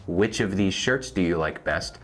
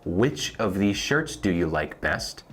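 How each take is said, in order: First: Said in the usual way. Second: Slowed, careful model question; slow teaching read. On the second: Shown as a demonstration. Teacher to Spanish learners, slow model question. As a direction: say it slowly so they can follow.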